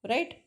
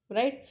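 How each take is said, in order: Both takes have the same delivery.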